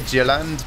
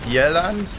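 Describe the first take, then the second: First: The name begins with an English J sound. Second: The name begins with a Y sound. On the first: "I kind of want to say Jylland" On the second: "I know the pronunciation of J's changes uh, when you're not English"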